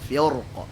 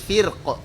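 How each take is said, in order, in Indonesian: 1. Bunyi r itu tebal dan berat. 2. Bunyi r itu tipis dan ringan.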